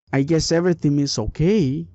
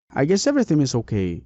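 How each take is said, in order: First: Okay lifted as a question; questioning tune. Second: Falling on okay, said quick; statement tune. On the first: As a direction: ask it, rising on okay. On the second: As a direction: state it flatly, falling at the end. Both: Shown as a demonstration. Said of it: "asking a question or saying a statement".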